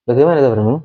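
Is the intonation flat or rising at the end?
flat. The pitch stays flat without rising. The speaker calls it wrong. "kan enggak kan?"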